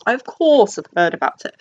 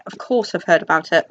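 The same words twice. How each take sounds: First: A hammed-up lofty "of course" that rises on "course"; lightly mocking snobby tone; mock pretentious. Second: Said in the usual way. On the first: Shown as a demonstration. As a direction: play it self-consciously grand, as if to show off. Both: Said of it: "Does that sound pretentious?".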